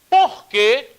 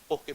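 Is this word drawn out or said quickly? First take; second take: drawn out; quickly. First: The word is drawn out and lengthened. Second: The word is short and clipped. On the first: It asks a question. "um porquê que sai mais esticado" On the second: It gives an answer. "sai mais rapidinho"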